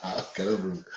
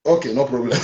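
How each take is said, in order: First: Much softer, muttered to himself; quiet aside. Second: Chuckling through the words; laughing. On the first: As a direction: drop it under your breath as an aside. Host repeats it to himself. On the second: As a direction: say it with an amused laugh. Host laughs at departing caller. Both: Real, not acted.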